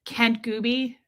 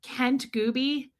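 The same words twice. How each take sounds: First: "Kent Gooby" run together as a single word; "Kent Gooby" as one quick unit; one-worded name. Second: "Kent Gooby" slowly, as two separate words; slow, deliberate "Kent Gooby"; savoring the name. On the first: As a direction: join "Kent Gooby" with no gap. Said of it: "I'm gonna one word it". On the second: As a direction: say "Kent", then "Gooby", drawn out. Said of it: "I gotta do it again". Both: Shown as a demonstration.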